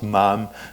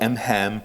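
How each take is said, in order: First: It is said as one word without an h. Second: It is said with an h sound after M. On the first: The speaker calls it right. "which I would probably pronounce MAM" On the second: The speaker calls it wrong. "and not M-HAM"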